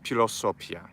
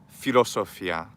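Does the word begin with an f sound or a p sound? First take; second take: p sound; f sound. First: The word begins with a p sound. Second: The word begins with an f sound. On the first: The speaker calls it right. "ph makes a p sound" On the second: The speaker calls it wrong. "not fa"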